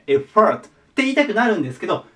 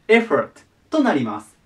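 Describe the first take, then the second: First: The stress falls on the second syllable. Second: The stress falls on the first syllable. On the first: The speaker calls it wrong. "後ろに、そのがね、しっくりくる人が多くて" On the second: The speaker calls it right. "強引に持っていくとね、絵が強い。"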